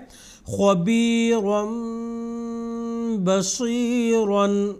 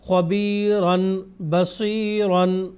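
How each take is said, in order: First: A long nasal m sound comes before the b. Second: A plain n sound comes before the b. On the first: The speaker calls it right. "बल्कि पढ़ा है" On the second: The speaker calls it wrong. "यहाँ पे भी हमने ये नहीं पढ़ा"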